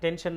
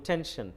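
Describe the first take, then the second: First: The t is plain, without a breath of air. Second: The t is breathy, with a puff of air. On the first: The speaker calls it wrong. "টেনশন না বলে" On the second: The speaker calls it right. "ঠ sound দিয়ে বলবো"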